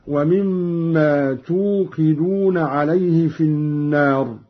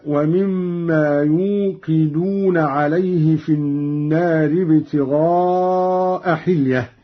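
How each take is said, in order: First: توقدون begun with a t sound; reading with ta. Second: يوقدون begun with a y sound; reference reading. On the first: Reciter showing Qalun's second-person form, slow reading with t. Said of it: "بالتاء". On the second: Reciter giving the verse before the variant, slow reading with y. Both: Shown as a demonstration.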